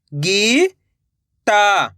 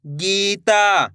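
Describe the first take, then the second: First: "Gita" split into two long syllables. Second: Said in the usual way. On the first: Shown as a demonstration. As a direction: draw out गी, pause, then ता in "Gita". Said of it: "एक एक अक्षर का उच्चारण". ("गीता" को तोड़कर, गी... ता) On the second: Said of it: "तो मिलके बन जाएगा".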